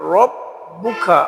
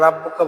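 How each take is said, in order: First: The r sound is heavy and full. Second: The r sound is light, Bengali-style. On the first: The speaker calls it right. "র পুর হবে রব্বুকা" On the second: The speaker calls it wrong. "আমরা ভুল করি আমরা রাব্বুকা বলি"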